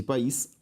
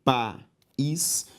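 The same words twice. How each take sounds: First: Said in the usual way. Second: "país" split as pa, ís; a clear pause inside "país"; syllable by syllable. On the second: Shown as a demonstration. Teacher separating the word for students, syllable by syllable. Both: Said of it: "se eu separo lápis e país".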